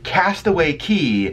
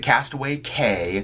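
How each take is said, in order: First: The last word rhymes with 'see'. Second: The last word rhymes with 'day'. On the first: The speaker calls it right. "the word C A Y in the Bahamas is pronounced like Key" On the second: The speaker calls it wrong. "we hear a lot of people pronounce it Castaway K"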